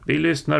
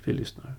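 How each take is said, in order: First: Higher-pitched, raised call. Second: Soft, hushed agreement; quiet assent. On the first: Announcing to the man above that they listen, calling out. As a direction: call it up out of the pit. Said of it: "ropade han". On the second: Gangulf agrees with Karl down in the pit, quietly. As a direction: say it softly to your companion. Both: A narrator's reading.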